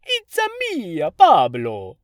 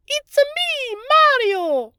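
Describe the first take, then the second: First: Cartoonish Italian accent, high then dropping loud on Pablo; mock Jared Leto's over-the-top Italian; imitating Leto's Mario accent. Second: Very high, loud cartoon Italian Mario voice; Mario impression. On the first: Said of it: "I remember a scene where he went". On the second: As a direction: burst out like the video-game plumber. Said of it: "the guy was a perfect Mario".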